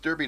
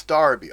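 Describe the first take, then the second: First: Derby said as written, DER-by; spelling pronunciation. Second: Derby said as Darby, DAR-bee; local pronunciation. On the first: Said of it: "It should be pronounced". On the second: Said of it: "It's pronounced Darby, like D A R". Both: Shown as a demonstration.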